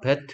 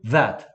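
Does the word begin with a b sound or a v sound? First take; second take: b sound; v sound. First: The word begins with a b sound. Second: The word begins with a v sound. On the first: The speaker calls it wrong. "배트 이러지 마시고요" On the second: The speaker calls it right. "윈니를 아랫 입술 위에 올려놓고 해봐"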